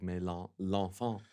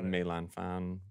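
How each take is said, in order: First: The name is pronounced like French words. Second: The name is pronounced with Chinese-like sounds. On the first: The speaker calls it wrong. "which I was always saying wrong" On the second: The speaker calls it right. "from the Chinese opera"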